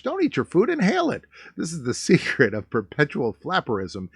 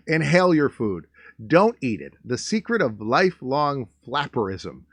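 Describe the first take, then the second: First: Mock excited read. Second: Said in the usual way. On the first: Shown as a demonstration. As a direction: read it like a giddy old ad, rising. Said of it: "second read, rising high". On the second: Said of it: "first read of the quote".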